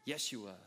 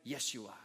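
No difference in how they are said.

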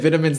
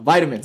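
First: The word is said in a British accent. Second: The word is said in an American accent. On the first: "If I say vitamins, the Americans won't understand" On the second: "So vitamins"

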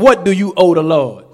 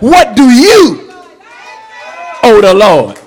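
First: The question is said quickly. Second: The question is said more slowly. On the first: The speaker calls it wrong. "I said it too fast" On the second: The speaker calls it right. "Let me say it again"

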